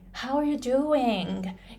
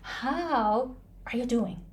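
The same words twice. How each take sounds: First: The final syllable is drawn out long. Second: The final syllable is kept short. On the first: The speaker calls it right. "Ing is the long part" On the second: The speaker calls it wrong. "People don't say"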